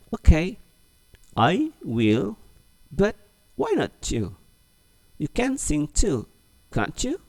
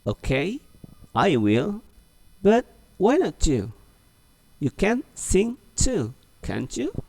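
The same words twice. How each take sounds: First: High, coaxing dialog voice; high coaxing voice, slowed for the class; model reading. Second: High, slow, coaxing; high, slowed dialog read for repeating; model reading again. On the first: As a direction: read it slowly for the class to repeat. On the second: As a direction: read it once more, slowly. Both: Shown as a demonstration. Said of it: "Oke, ulang lagi ya".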